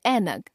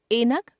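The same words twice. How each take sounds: First: Said in the usual way. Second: ऐनक as "enak" with closed e; mispronounced ai. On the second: Shown as a demonstration. Teacher showing a common error, ऐनक with e for ai. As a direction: open ऐनक on "e", not "ai". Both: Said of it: "ए, ऐ संबंधी अशुद्धियां".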